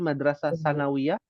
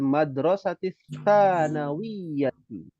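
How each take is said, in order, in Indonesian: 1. Kata-kata itu berakhir dengan bunyi 'ah' yang terpotong. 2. Kata-kata itu berakhir dengan 't' yang tersambung dan bunyi 'ati'. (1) "Jadi salah baca sebenarnya" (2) "Yang betul adalah"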